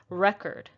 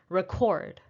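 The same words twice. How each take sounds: First: The stress is on the first syllable. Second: The stress is on the second syllable. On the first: It is used as a noun. "The first syllable is stressed" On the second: It is used as a verb. "it's a verb"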